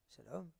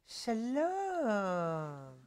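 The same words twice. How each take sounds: First: It is said in a plain, polite tone. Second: It is said in a suggestive, flirtatious tone.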